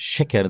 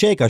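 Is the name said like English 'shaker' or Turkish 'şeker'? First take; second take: Turkish; English. First: The vowels sound like Turkish 'şeker'. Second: The vowels sound like English 'shaker'. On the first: It is the real family name, meaning sugar. The speaker calls it right. "Mein Nachname heißt, ist Shaker" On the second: It names a drink mixer. The speaker calls it wrong. "sag nicht Shaker, Shaker ist ein Mixer"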